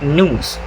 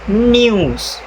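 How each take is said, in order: First: The n goes straight into the vowel. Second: A y sound comes between n and vowel. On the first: "In American English, news usually pronounced as this" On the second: "in British English, it is pronounced as this"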